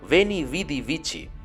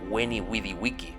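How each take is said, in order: First: It uses a later, non-classical Latin pronunciation. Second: It uses the classical Latin pronunciation. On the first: The speaker calls it wrong. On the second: The speaker calls it right.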